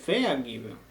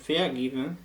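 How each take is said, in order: First: Vergeben said with the stress wrongly on ver. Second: Vergeben with ver unstressed and the weight on geben; stress on geben. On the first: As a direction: hit ver hard as a wrong example. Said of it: "y no va a ser vergeben". (vergeben con acento incorrecto en ver) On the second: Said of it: "ya no va a haber entonación en el prefijo". (vergeben con acento en geben, no en ver) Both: Shown as a demonstration.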